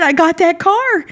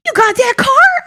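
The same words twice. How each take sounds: First: High, emphatic statement falling on "car"; triumphant answer. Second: Very high, loud, incredulous question rising on "car"; amazed question. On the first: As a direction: confirm it proudly, letting "car" drop. Retold triumphant answer to principal. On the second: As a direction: imitate a principal asking in astonishment. Retold principal's amazed question. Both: Retold or imitated.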